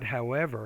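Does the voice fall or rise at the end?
fall. The voice falls or stays flat at the end. The speaker calls it wrong. "not however"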